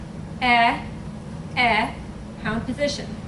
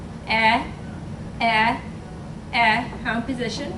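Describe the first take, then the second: Both takes have the same delivery.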